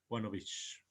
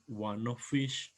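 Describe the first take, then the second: First: The word of ends with a v sound. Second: The word of ends with an f sound. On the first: The speaker calls it right. "esa F la vamos a cambiar por una V" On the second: The speaker calls it wrong. "en vez de decir"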